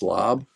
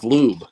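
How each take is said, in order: First: The vowel is a short 'o', like 'lob'. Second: The vowel is a long 'oo', like 'lube'. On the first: "Pronounced lob" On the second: "lob's not as funny as lube"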